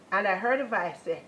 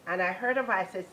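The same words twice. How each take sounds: The two takes are said the same way.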